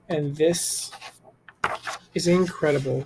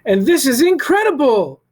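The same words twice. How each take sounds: First: It is said flatly, without much feeling. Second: It is said excitedly, with lots of feeling. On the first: The speaker calls it wrong. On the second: The speaker calls it right.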